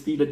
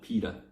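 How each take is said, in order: First: The word begins with an F sound. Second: The word begins with a P sound. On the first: The speaker calls it right. "It's feta cheese, not pita. Yeah, I realize it's F" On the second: The speaker calls it wrong. "I've been saying it wrong"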